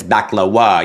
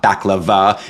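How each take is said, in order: First: "baklawa" said with a w where the v would be; corrected pronunciation. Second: "baklava" said with a clear v sound in the middle; wrong pronunciation. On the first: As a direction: stress the corrected "baklawa", with a w sound instead of a v. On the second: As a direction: say "baklava" the way it is usually said, with a v. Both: Shown as a demonstration. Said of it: "It's not baklava, it's baklawa".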